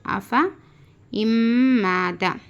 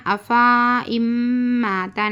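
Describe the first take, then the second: First: "अफ़ा इम्माता" with a short "fa", then a long nasal hum on the m; silent alif. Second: "अफ़ा इम्माता" with the end of अफ़ा drawn out; wrong long vowel. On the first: Teacher showing the true reading, अफ़ा kept short. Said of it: "ये हकीकत में इस तरीका है". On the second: Teacher showing what not to read, अफ़ा dragged long. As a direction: stretch the final "aa" in "अफ़ा" before "इम्माता". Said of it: "नहीं पढ़ना". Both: Shown as a demonstration.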